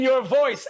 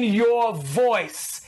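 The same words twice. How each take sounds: First: Said in the usual way. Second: "voice" drawn out slowly; slow, weighty stress on "voice"; emphatic VOICE. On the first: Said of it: "I don't mean your voice". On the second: Shown as a demonstration. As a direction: lean on "voice" and stretch it long. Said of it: "I mean your voice".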